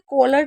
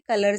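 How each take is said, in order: First: The first vowel sounds like the o in collar. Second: The first vowel sounds like the u in cut. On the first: The speaker calls it wrong. "इसे कॉलर नहीं पढ़े" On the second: The speaker calls it right. "इसे कलर से ही पढ़ा जाएगा"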